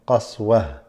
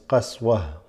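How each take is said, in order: First: The word ends with a soft h sound. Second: The word ends with a soft h sound.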